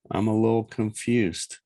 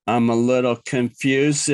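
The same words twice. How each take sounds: First: Said in the usual way. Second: Goofy, deliberate echo of being confused; mock confusion. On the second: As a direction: say it as a daft cartoon, ending in a chuckle. Repeats it as a goofy joke.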